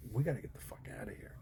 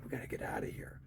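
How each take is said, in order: First: Rushed, hushed panicky whisper; fast urgent whisper. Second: Hushed panicky whisper to a friend; urgent whisper. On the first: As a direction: hiss it out quickly, eager to flee. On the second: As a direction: whisper it like you're sneaking away. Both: Retold or imitated. Fleeing a riot, whispered reaction.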